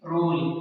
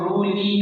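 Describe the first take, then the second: First: The final e is silent after the l. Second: The final e is pronounced as an extra vowel. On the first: The speaker calls it right. "बल्कि इसको पढ़ेंगे रूल" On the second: The speaker calls it wrong. "रूल ई नहीं पढ़ेंगे"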